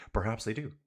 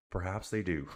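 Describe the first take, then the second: First: "Perhaps they do" with stress on "do" and a questioning rise; rising tune. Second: "Perhaps they do" with stress on "they", falling and a little softer; knowing fall. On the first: Streamer musing about the riders' roommates, rising on "do". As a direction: lift "do" at the end. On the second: Streamer repeating the line with a knowing fall on "they". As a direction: lean on "they", then let it drop. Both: Shown as a demonstration.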